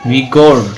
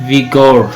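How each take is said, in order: No difference in how they are said.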